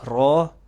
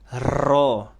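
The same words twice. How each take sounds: First: The r is trilled briefly with few vibrations. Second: The r is trilled with many strong vibrations. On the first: The speaker calls it right. "Normal aja" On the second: The speaker calls it wrong. "terlalu berlebihan dalam getaran. ... ini salah"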